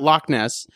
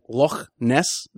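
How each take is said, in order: First: Loch ends in a hard k sound. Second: Loch ends in a throaty, breathy sound. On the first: The speaker calls it wrong. "it's not Loch Ness" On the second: The speaker calls it right. "They actually pronounce it like Loch Ness"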